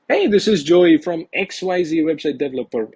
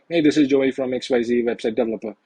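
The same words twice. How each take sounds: First: It sounds casual, as if the call is expected. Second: It sounds stiff, like reading a script.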